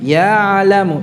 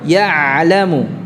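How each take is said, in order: First: The first syllable is drawn out long. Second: The first syllable is short; the ain is held. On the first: The speaker calls it wrong. "Bukan ya'lamu. jangan dicengkok" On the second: The speaker calls it right. "Jadi ya-nya pendek saja"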